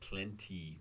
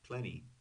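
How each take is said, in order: First: The T is crisp, with a puff of air. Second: The T is soft, with no puff of air. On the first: "I did not pronounce it plenty when I was reading" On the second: "Plenty is pronounced plenty"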